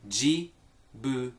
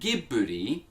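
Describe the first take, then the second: First: The word begins with a soft J sound. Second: The word begins with a hard G sound. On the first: This is how the name is said in Japan. The speaker calls it right. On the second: This is what the studio could have chosen but did not. The speaker calls it wrong.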